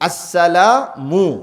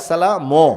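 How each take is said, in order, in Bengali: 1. শেষ সিলেবলে ঠোঁট গোল, উচ্চারণ 'mu'। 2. শেষ সিলেবল গোল নয়, উচ্চারণ 'ma'। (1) "মিমের পেশটা, ঠোঁটটা গোল হইতে হবে" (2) "আমরা কি বলি?"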